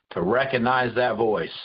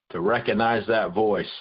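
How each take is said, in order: Both takes have the same delivery.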